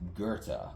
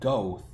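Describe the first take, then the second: First: The name has two syllables, ending in 'tuh'. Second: The name is one syllable, like 'goth'. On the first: The speaker calls it right. "but it's pronounced Goethe" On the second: The speaker calls it wrong. "it's spelled Goth"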